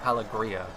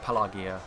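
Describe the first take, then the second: First: The name is said with an R sound. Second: The name is said without an R sound. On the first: The speaker calls it wrong. "I used to say it Pelagria" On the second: The speaker calls it right. "there is no R, so it's Pelagia"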